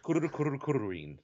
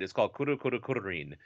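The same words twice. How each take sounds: First: "Kuru Kuru Kururin" with rolled r's. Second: Kuru Kuru Kururin with trilled r's; rolled r. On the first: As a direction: trill every r in Kururin, bird-like. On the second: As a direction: roll the R in Kururin quickly. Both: Shown as a demonstration. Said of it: "I like when you roll the R's".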